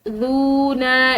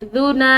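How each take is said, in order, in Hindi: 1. "zu" ध्वनि लंबी खिंची हुई है। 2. "zu" ध्वनि छोटी और नरम है। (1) "इसको खींच कर जूना इस तरह नहीं पढ़ेंगे" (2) "खिंचाव के साथ नहीं बल्कि इसको नरमी के साथ"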